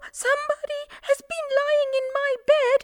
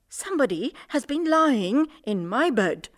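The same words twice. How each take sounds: First: It is said in a small voice. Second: It is said in a medium voice.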